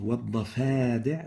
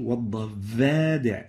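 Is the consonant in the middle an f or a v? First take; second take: f; v. First: The middle consonant is a voiceless f. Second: The middle consonant is a voiced v. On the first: The speaker calls it right. "rather than saying" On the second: The speaker calls it wrong. "V instead of F"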